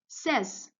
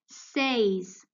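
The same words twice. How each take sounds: First: The vowel is a short E sound. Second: The vowel is a long A sound. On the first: The speaker calls it right. "here you'll say says" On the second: The speaker calls it wrong. "You're not pronouncing it says, okay? That's wrong"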